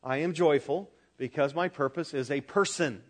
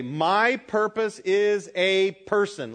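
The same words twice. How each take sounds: First: Said in the usual way. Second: Slow, firm, louder "My purpose is a person."; with conviction. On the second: Shown as a demonstration. Preacher modeling the line for the congregation with conviction. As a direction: plant each word of "My purpose is a person." like a creed. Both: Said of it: "That is to be said with conviction".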